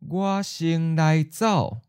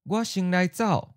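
First: It is said slowly and carefully. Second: It is said at a natural, quick pace. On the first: "and then slow" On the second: "Once natural speed"

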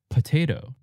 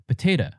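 First: Only the first syllable is reduced to a schwa. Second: Both the first and last syllables are reduced. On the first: "we de-stress the first syllable, po, and it becomes p" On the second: "Some people will even de-stress the last syllable"

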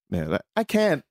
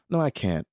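First: It sounds happy, with the voice going up. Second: It sounds regretful, with the voice going down.

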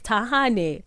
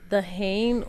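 First: The surname is said with its native pronunciation. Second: The surname is said with an American pronunciation. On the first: This is how the name is really pronounced. The speaker calls it right. "It's Thahane" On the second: This is how Americans mispronounced the name. The speaker calls it wrong. "Some of them would be like Thahane"

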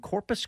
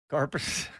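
First: The first syllable sounds like 'core'. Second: The first syllable sounds like 'car'. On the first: The speaker calls it wrong. "You said it wrong" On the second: The speaker calls it right. "From around here, we say Carpus"

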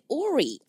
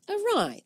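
First: The word sounds like or-ee, ending in ee. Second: The word sounds like uh-rye, ending in rye. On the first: The speaker calls it wrong. "But she said Ori" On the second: The speaker calls it right. "Awry, that's right"

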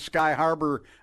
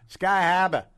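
First: It is said in a plain Minnesota accent. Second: It is said in a Boston accent.

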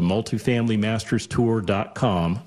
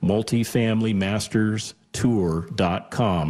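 First: It is said at normal speed. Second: It is said more slowly.

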